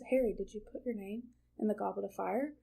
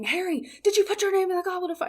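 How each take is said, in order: First: It is said calmly and inquisitively. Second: It is said angrily and aggressively.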